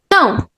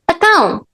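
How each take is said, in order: First: The first syllable is dropped, leaving one syllable. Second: The first syllable is replaced by an 'a' sound. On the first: "We can just remove it" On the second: "we replace it with a, which is a completely different sound"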